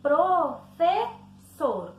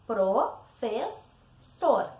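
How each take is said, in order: First: "Professor" broken as pro-fe-ssor, slow and louder; syllable by syllable. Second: "Professor" split slowly as pro-fes-sor; written syllable division. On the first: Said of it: "como se tivesse separando as sílabas na hora da fala". ("Professor" sílaba por sílaba, como na fala: pro-fe-ssor) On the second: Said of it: "como se faz a separação correta". ("Professor" separado como na escrita: pro-fes-sor) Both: Shown as a demonstration.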